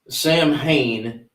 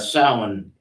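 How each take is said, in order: First: It is said letter by letter, like 'Sam-hane'. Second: It is said with the Gaelic sound, like 'Sow-in'. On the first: The speaker calls it wrong. "not proper pronunciation" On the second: The speaker calls it right. "is the correct uh, the correct pronunciation"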